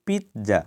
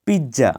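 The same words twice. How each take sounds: First: পিৎজা with t before the z, "pit-za"; correct pronunciation. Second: পিৎজা with a plain j, "pij-ja"; common mispronunciation. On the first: Teacher shows how it should be, correctly pronounced. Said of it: "কিন্তু এটা হবে". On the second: Teacher quotes how we say it, mispronounced. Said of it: "পিৎজা বলি". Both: Shown as a demonstration.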